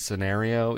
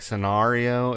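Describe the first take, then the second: First: The stressed vowel sounds like 'air'. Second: The stressed vowel sounds like 'ar'. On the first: "as opposed to scenario" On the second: "saying "r" like scenario"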